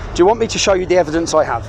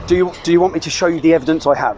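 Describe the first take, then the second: First: It is said in an aggressive tone. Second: It is said in a calm tone.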